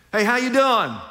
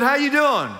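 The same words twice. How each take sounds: First: Cheery greeting. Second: Higher, louder greeting with a laugh; louder repeated greeting. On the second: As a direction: say it again brighter and louder, laughing. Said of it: "I said". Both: Pretend.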